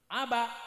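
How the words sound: It is said with a Kalimantan accent, final sound clipped. "orang Kalimantan ... suka mematikan huruf yang terakhir"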